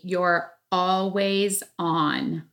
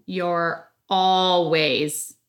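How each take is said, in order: First: Very slow, drawn-out phrase; said slowly. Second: "always" stretched and pressed hard; stress on always. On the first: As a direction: stretch every word out deliberately. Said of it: "I said that slow for a reason". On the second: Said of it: "emphasizing the word always on". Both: Shown as a demonstration.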